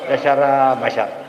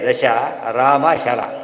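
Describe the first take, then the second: First: The syllables are grouped into two chunks. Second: The syllables are grouped into three chunks. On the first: The meaning is lost. The speaker calls it wrong. "ಎಲ್ಲರೂ ಬಿಡ ರಾಮ ಬಂದು ತಮಾಷೆ ಮಾಡ್ತಾರೆ" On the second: The meaning is clear. The speaker calls it right. "ದಶ ರಾಮ ಶರಾಹ ನೋಡಿ"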